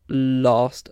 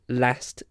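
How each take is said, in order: First: The vowel is long and open, as in father. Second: The vowel is short and front, as in cat. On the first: "sounds like the A sound in father" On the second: "Sounds like the A sound in cat"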